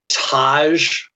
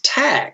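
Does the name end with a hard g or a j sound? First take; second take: j sound; hard g. First: The name ends with a soft j sound. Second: The name ends with a hard g sound. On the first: The speaker calls it wrong. "I would call him Taj" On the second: The speaker calls it right. "it's Tag"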